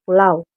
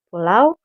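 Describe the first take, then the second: First: The word is said in a quick, casual way. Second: The word is said in a careful, standard way.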